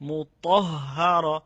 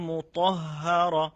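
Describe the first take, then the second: Both takes have the same delivery.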